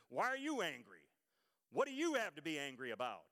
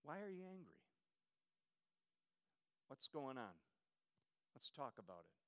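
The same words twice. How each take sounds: First: Louder, sharp defensive challenge; stern, defensive. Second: Soft, low, gentle asking out of concern; gentle question. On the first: Pastor to the congregation, showing the wrong stern way to ask. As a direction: throw the question back defensively. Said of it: "if you say it defensively, sternly". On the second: Pastor to the congregation, showing the gentle way to ask. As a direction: ask it softly, out of real concern. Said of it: "May I suggest with gentleness". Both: Shown as a demonstration.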